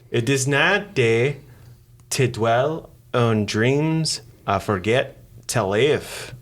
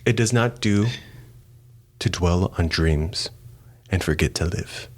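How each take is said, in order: First: It is said in a Scottish accent. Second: It is said in the speaker's usual accent.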